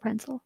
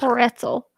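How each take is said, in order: First: The middle sounds like 'nz', as in Prinzel. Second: The middle sounds like 'ts', as in pretzel. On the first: This is the speaker's own habitual pronunciation. "If I'm the only one who says it" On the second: This is how other people say it. "I don't like it. It's really hard for my mouth"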